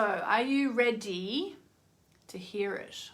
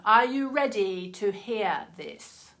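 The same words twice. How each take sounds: First: Slow, drawn-out hint of Moira; lightly put-on theatrical drawl; Moira impression. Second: Slow, hammed-up Moira lilt on ready; mock-grand theatrical drawl; Moira impression. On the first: To viewers, a slight Moira-style tease. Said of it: "That was a bit of Moira coming out just then". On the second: To viewers, teasing the card reveal in mock Moira voice. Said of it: "Such a weird accent she has".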